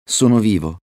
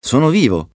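First: Mildly raised realisation; dawning relief. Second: High, jubilant exclamation; elated relief. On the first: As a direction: say it as first realising it. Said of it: "pensò Settimo". (sollievo appena accennato) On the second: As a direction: let the joy leap upward. Repeated in rising joy of survival. (esultanza acuta) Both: A narrator's reading.

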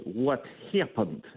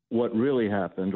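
First: Slow, put-on Russian accent; playful Russian accent for a laugh. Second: Said in the usual way. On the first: Shown as a demonstration. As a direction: drag out the words in a mock Russian accent. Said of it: "in my Russian accent". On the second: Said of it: "as I like to say".

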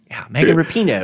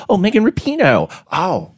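First: Said in the usual way. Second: Put-on Megan Rapinoe said as "Meykin Rupinoe" in a light Baltimore accent. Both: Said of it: "It's the Baltimore accent".

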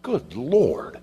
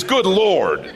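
First: Mildly exasperated, higher-pitched exclamation; frustrated. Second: Loud, high exclamation of frustration; exasperated. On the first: Retold or imitated. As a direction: imitate a frustrated sigh of words. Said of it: "Jesus is just frustrated". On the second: Acted. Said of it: "What I say is".

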